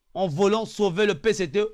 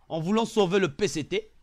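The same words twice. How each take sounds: The two takes are said the same way.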